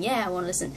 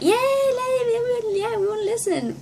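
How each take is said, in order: First: Said in the usual way. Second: High, cheering fan voice; re-enacted crowd enthusiasm; eager crowd cheer. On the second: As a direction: cheer like an excited audience. Acting out crowd's eager reply.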